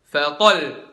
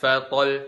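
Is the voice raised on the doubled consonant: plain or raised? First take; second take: raised; plain. First: The voice rises with force on the doubled consonant. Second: The doubled consonant is said plainly, without extra force. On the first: The speaker calls it right. "tapi fatal" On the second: The speaker calls it wrong. "bukan fatal"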